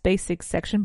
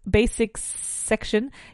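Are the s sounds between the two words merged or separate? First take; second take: merged; separate. First: The s sounds merge into one single s. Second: Both s sounds are pronounced separately. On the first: "you could say it with one single S" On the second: "I find it tremendously difficult"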